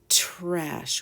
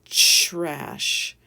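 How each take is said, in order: First: The word begins with a clear t sound. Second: The word begins with a ch-like sound. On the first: The speaker calls it right. "say it clearly as trash with a T" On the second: The speaker calls it wrong. "some people say trash"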